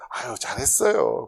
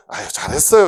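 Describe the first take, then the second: First: Mild, dutiful well-done at normal volume; lukewarm praise. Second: Upbeat, louder praise with a rising end; quick, hearty compliment; ready praise. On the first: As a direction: praise them politely without meaning it fully. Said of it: "한 육십 점 되면". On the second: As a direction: praise them brightly, out loud. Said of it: "누가 뭐 하면". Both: Acted.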